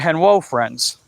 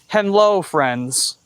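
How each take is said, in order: First: The first word has a W sound in the middle. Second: The first word has an L sound in the middle. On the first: "added the W instead of the L" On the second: "Like instead of henlo friends"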